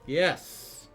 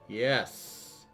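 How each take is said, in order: First: It is said loudly. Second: It is said more softly.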